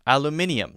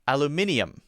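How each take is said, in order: First: It is said with five syllables. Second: It is said with five syllables.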